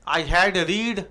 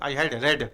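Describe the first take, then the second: First: 'Read' is said with a long 'ee' vowel. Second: 'Read' is said with a short 'e' vowel. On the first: The speaker calls it wrong. "गलत" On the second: The speaker calls it right. "हैड के बाद आ जाए, तो रीड को रेड बोलते हैं"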